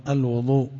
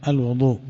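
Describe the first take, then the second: The two takes are said the same way.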